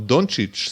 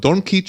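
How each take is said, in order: First: The name is said with a 'ch' sound. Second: The name is said with a 'k' sound. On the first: The speaker calls it right. "השחקן הכי מפורסם אולי בליגה היום" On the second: The speaker calls it wrong. "לא יודעים להגיד את השם עדיין קוראים לו"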